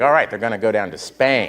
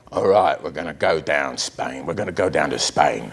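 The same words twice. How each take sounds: First: Said in the usual way. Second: Put-on low, mumbled London gangster accent; thick Cockney accent, low. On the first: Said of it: "And I'm like". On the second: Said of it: "an impression of an accent nobody can fully understand".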